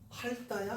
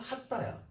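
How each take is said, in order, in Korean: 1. 첫 음절은 ㄹ 소리로 끝나요. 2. 첫 음절은 ㅌ 소리로 끝나요.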